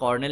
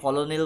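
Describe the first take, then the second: First: The name has two syllables, 'kor-nel'. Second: The name has three syllables, 'ko-lo-nel'. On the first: The speaker calls it right. "It is pronunciation হয় কর্নেল" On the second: The speaker calls it wrong. "অনেকে কলোনেল বলে"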